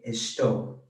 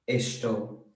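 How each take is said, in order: First: The s is said like English sh. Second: The same.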